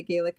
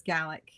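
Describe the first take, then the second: First: "Gaelic" said GAY-lick; Nova Scotian pronunciation. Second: "Gaelic" said GAL-ick; Scottish pronunciation. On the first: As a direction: say "Gaelic" with a first syllable like "gay". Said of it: "we say Gaelic in Nova Scotia". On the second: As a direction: say "Gaelic" with a short a, like "gallic". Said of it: "everybody in Scotland says Gaelic". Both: Shown as a demonstration.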